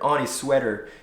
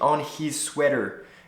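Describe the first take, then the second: First: The H in 'his' is soft, almost dropped. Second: The H in 'his' is pronounced strongly. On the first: The speaker calls it right. "it doesn't have to be that strong" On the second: The speaker calls it wrong. "you see how unnatural it sounds"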